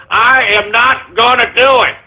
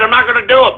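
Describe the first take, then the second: First: "I am not" spelled out in full, each word stressed; slow down and lean on "am not"; emphatic refusal. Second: Said in the usual way. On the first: Real, not acted.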